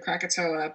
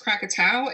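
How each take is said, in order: First: The name is said in an anglicized pronunciation. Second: The name is said in its original, local pronunciation. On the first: This is a form changed by English speakers. The speaker calls it wrong. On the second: This is the real name of the place. The speaker calls it right. "The actual name is Krakatoa"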